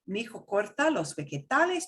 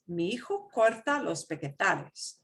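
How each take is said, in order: First: It is spoken quickly and smoothly. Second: It is spoken slowly and carefully. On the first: This is how native speakers actually talk. "you're going to hear it this way" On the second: This is a practice pace for learners. "when I practice with you ... you do have to go that slow"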